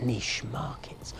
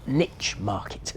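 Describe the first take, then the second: First: Niche is pronounced the British way. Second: Niche is pronounced the American way.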